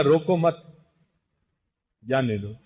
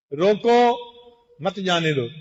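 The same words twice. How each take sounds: First: "روکو مت" said together, long pause, then "جانے دو"; pause after mat. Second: "روکو" stands alone as a command: stop, don't let him go; pause after rokoo. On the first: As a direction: split after "مت" so it means don't stop, let him go. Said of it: "مطلب نکالنے والے نے کہا". ("مت" کے بعد لمبا وقفہ، پھر "جانے دو") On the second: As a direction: pause after "روکو", then "مت جانے دو" runs on as one phrase. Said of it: "کہنے والے نے کہا تھا". ("روکو" کے بعد وقفہ، پھر "مت جانے دو" ایک ساتھ) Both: Shown as a demonstration.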